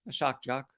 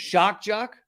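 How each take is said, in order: First: It is said at a normal volume. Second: It is said louder than before.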